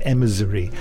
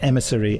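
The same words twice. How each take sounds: First: The middle consonant is a z sound. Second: The middle consonant is an s sound. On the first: The speaker calls it wrong. "I was making a Z sound" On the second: The speaker calls it right. "rather than a S sound"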